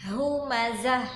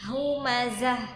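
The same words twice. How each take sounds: Both takes have the same delivery.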